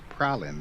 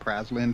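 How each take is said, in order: First: The S in the middle is silent. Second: The S in the middle is pronounced. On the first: The speaker calls it right. "Turns out it's actually pronounced Pralin. The S is silent" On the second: The speaker calls it wrong. "I've always been calling it Praslin"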